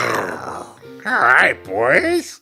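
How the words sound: It is said in a deep voice.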